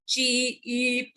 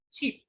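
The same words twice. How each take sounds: First: "Cheap" stretched and split into "chee-ee-p"; broken into units. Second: "Cheap" said short as a single syllable; in one go. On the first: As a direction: pull "Cheap" apart as if it had several sounds. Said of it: "can't break them into two units". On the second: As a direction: say "Cheap" in one unbroken beat. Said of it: "You have to tell in one go". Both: Shown as a demonstration.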